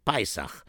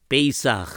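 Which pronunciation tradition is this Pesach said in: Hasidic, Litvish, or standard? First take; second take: Hasidic; Litvish. First: It is said with a Hasidic pronunciation. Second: It is said with a Litvish pronunciation. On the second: "Litvak say it's Pesach"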